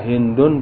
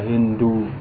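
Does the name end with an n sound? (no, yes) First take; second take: yes; no. First: The name ends with an added n sound. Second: The name ends on a vowel, without n. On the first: "boleh ditanwin" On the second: "boleh tidak ditanwin"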